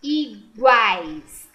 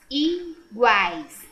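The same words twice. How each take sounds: First: "Iguais" said louder, split into syllables; teacher separating "Iguais" aloud. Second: Said in the usual way. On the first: Shown as a demonstration. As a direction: pull "Iguais" apart to show the split. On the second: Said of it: "não é a C".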